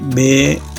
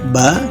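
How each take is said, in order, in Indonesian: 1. Nama huruf itu berakhir dengan vokal 'e'. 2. Nama huruf itu berakhir dengan vokal 'a'. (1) "di orang Sunda ya ... pengejaannya seperti ini ya" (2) "ya ke a gitu, bukan ke e"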